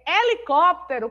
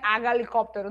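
First: The word starts directly with the vowel sound. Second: The word starts with an audible h sound. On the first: The speaker calls it right. "É helicóptero" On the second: The speaker calls it wrong. "não é H helicóptero, não"

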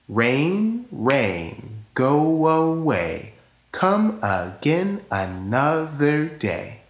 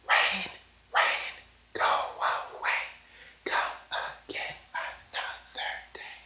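First: It is said in a normal speaking voice. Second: It is said in a whispering voice.

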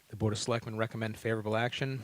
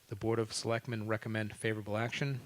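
No difference in how they are said.

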